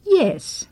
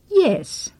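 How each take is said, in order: First: The pitch falls. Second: The pitch falls.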